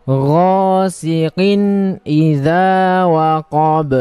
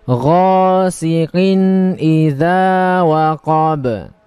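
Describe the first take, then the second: Both takes have the same delivery.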